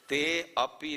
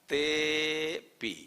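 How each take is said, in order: First: A separate 'a' vowel is sounded before pi. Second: No separate vowel is sounded between te and pi. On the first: The speaker calls it wrong. "ते अपी नहीं" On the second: The speaker calls it right.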